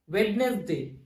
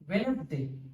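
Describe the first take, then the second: First: The d sound is pronounced in the word. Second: The d sound is silent in the word. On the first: The speaker calls it wrong. "it pronouncing in this way, it is wrong" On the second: The speaker calls it right. "This D is a silent letter"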